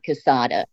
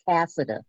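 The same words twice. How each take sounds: First: It sounds like a Spanish-style name. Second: It sounds like the Irish name Cassidy. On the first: The speaker calls it wrong. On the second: The name comes from an Irish family. The speaker calls it right. "Like the Irish Cassidy"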